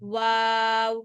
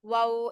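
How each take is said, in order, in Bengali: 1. স্বরটি একটু লম্বা করে টেনে বলা হয়। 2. স্বরটি ছোট করে বলা হয়, টেনে বলা হয় না। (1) "একটু টেনে পড়বেন" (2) "এরকম না"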